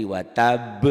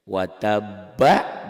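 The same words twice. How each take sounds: First: Watab cut on b with a short bouncing echo; qalqalah stop. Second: Watabba read through, final -ba a full open syllable; full ending. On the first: Teacher shows what it becomes when stopped, bouncing qalqalah. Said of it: "dihentikan jadi". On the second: Teacher shows the word before stopping on it, full ending. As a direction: sound the whole last vowel of "Watabba". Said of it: "dihentikan jadi watab". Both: Shown as a demonstration.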